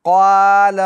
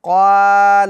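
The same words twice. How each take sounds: No difference in how they are said.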